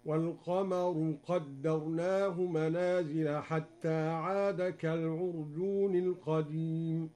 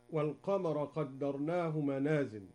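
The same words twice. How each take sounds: First: Slow chanted recitation with والقمر ending in u, walqamaru; al-qamaru with final u, recited slowly; Duri reading, recited. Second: Said in the usual way. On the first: Shown as a demonstration. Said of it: "هكذا". (والقمرُ بالرفع مع ترتيل بطيء) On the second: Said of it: "قرأ القمر بالرفع".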